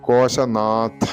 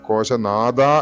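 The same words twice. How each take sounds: First: The last syllable is said with an aspirated th. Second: The last syllable is said with a d sound. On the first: It means the one who is ruler of the treasuries. The speaker calls it right. "കോശനാഥ എന്ന് തന്നെ വരണം" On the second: It would mean the one who is the sound of the treasuries. The speaker calls it wrong. "അതല്ലാതെ കോശനാഥ എന്ന് ഉച്ചരിച്ചു കഴിഞ്ഞാൽ അർത്ഥം പൂർണ്ണമായി മാറി"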